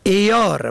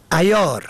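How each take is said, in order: First: عیار said eyâr, short e first; عیار pronounced eyâr; kasra on first. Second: عیار said ayyâr, short a first; عیار pronounced ayyâr; fatha on first. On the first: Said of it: "به کسر اول". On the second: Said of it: "به فتح اول". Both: Shown as a demonstration.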